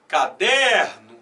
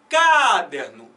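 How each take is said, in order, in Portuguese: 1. A tônica está na sílaba do meio. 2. A tônica está na primeira sílaba. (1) "Bota na do meio" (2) "tenta botar força nessa primeira"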